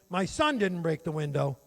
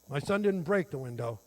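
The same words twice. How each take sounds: First: The word "son" is said louder. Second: The word "break" is said louder.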